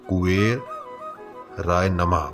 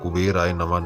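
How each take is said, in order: First: Kuber is said clearly apart from the ending. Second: Kuber runs straight into the ending as one word. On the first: The speaker calls it right. "कुबेर कुबेर है" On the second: The speaker calls it wrong. "मतलब कुबेराय नमः नहीं है"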